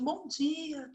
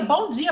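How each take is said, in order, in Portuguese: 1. É dito em voz baixa e com pouca energia. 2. É dito em voz alta e com muita energia. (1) "Não sou eu" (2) "E num volume muito alto"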